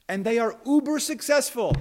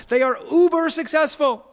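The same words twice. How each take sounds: First: Said in the usual way. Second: "uber" hit higher and louder; "They are uber successful" with "uber" lifted and loud; stress on uber. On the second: Shown as a demonstration. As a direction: punch "uber" with relish. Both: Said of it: "I love that word uber".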